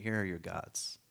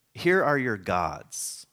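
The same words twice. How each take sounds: First: "Here are your gods." repeated much softer; softer reread. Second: "Here are your gods." read out very slowly. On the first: Preacher rereading the verse, softly. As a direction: say it again, quietly, to yourself. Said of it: "All right". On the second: Preacher reading the English translation, slowly. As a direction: lay each word down like a verse. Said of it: "the story will say". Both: Shown as a demonstration.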